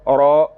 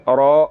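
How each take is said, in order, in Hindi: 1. र भारी है, पूरी और गोल आवाज़ के साथ। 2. र भारी है, पूरी और गोल आवाज़ के साथ।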